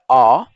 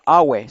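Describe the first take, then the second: First: Only a single vowel sound is heard. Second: An extra vowel sound follows the first vowel. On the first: The speaker calls it right. "sino que sería a" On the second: The speaker calls it wrong. "aquí no sería awe"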